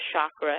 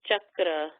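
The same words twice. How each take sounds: First: The word begins with a soft, non-hard sound. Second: The word begins with a hard ch sound. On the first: The speaker calls it wrong. "there's no such word as chakra" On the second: The speaker calls it right. "It's cha with an actual hard ch sound"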